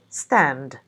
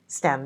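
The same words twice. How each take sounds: First: The final D sound is clearly pronounced. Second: The final D sound is dropped. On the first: It is said as an isolated word. "would be pronounced fully in the isolated word" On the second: It is said in connected speech. "Nor is the D sound in stand when we say stand there"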